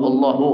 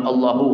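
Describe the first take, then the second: Both takes have the same delivery.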